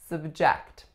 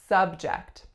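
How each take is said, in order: First: The stress is on the second syllable. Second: The stress is on the first syllable. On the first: It is used as a verb. "our second syllable is the strongest" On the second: It is used as a noun meaning topic. "As a noun, we would say subject"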